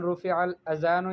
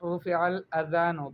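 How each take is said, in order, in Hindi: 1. बीच का व्यंजन एक गूँजती हुई 'z' ध्वनि है। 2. बीच का व्यंजन एक नरम 'dh' ध्वनि है। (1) "आज़ान के बजाय उसको कहती है अज़ान" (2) "सही तलफ़ुज़ के साथ ... बिज़्ज़ाल, यानी ज़ाल के साथ"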